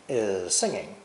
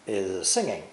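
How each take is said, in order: No difference in how they are said.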